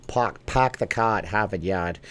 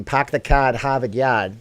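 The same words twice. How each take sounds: First: Put-on half-hearted Boston accent. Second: Louder mock Boston accent. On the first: Streamer obliging a viewer's request, tentative Boston accent. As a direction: try a reluctant Boston accent, r's dropped. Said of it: "Do a Boston accent". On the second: Streamer attempting the famous Boston line, mock Boston accent. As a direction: punch out a bad Boston accent with dropped r's. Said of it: "I can't do a Boston accent".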